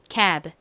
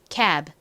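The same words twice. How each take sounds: Both takes have the same delivery.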